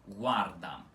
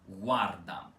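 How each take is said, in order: Both takes have the same delivery.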